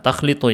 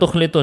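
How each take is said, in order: First: The first syllable has the vowel a. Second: The first syllable has the vowel u. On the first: The speaker calls it right. "Nah, takhlitu ya" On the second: The speaker calls it wrong. "bukan tukhlitu, salah saya"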